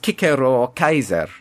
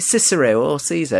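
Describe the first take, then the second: First: The names begin with hard k sounds. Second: The names begin with soft s sounds. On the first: This is how the names were said in ancient Latin. The speaker calls it right. "It was Cicero or Kaiser" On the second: This is how the names are said today. The speaker calls it wrong. "when you say Cicero or Caesar, it's not"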